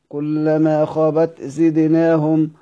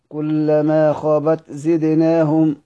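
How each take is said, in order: No difference in how they are said.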